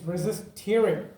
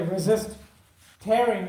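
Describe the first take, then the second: First: Tearing rhymes with hearing, as in crying. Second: Tearing rhymes with airing, as in ripping. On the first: The tissue resists shedding tears. The speaker calls it wrong. "why would tissues cry?" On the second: The tissue resists being ripped apart. The speaker calls it right. "when I say resist tearing"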